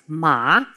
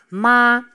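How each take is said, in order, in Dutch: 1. De toonhoogte stijgt licht, zoals bij een vraag. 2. De toonhoogte blijft hoog en gelijk. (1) "Die gaat licht naar boven" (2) "De eerste is een hele hoge toon. Die is heel gelijk"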